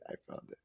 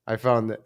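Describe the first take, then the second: First: Whispered. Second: Said in the usual way. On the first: Real, not acted. Streamer to viewers after finding the clip, whispering. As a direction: whisper "I found it" under the breath.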